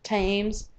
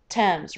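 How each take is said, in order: First: It is pronounced the way it is spelled. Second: It is pronounced unlike the way it is spelled. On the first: The speaker calls it wrong. "It looks like it should say Thames" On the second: The speaker calls it right. "This is actually the Thames River"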